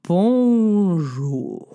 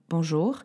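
First: It is said slowly, drawn out. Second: It is said at normal speed.

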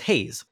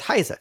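First: The name is said like English 'haze'. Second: The name is said like German 'high-zeh'. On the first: It is how the name is officially pronounced. The speaker calls it right. "they were pronouncing her name as Haze" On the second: It follows the German word the name came from. The speaker calls it wrong. "I pronounced the name of that singer as Heise"

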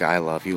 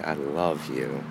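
First: It is said carelessly, without feeling. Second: It is said warmly, with real feeling.

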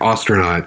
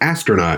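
First: The first vowel sounds like 'aw' in Austria. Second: The first vowel is a short 'a' sound. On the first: "it sounds like A-U. So it's like Austria" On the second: "which is just the A-S-T"

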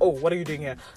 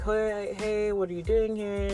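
First: It is said in a suspicious, hostile way. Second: It is said in a friendly, relaxed way.

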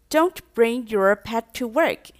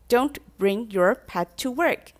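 First: It is said in a mild, casual tone. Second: The same.

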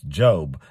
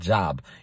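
First: The vowel is long, as in 'robe'. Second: The vowel is short, as in 'job'. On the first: It is the name of the biblical figure. The speaker calls it right. "It's Job. Job lost his job" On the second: It means work or employment. The speaker calls it wrong. "It's not Job. You're looking for a job"

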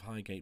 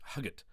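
First: The first syllable sounds like 'high'. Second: The first syllable sounds like 'hug'. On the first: The speaker calls it wrong. "I think you're pronouncing it wrong" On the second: The speaker calls it right. "the tube pronounces it Huggert"

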